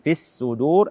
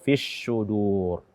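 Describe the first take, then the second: First: The consonant is a plain, light s. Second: The consonant is an sh sound. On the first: "jangan fis sudur" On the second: "atau fis sudur"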